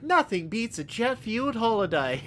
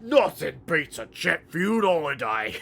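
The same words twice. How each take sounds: First: Meme quote. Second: Gruff Cockney ork take on the meme; a hint of Cockney ork; mock ork voice. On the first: Retold or imitated. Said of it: "the meme where it's like". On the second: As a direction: say it like a Warhammer ork. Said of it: "as a forty K orc".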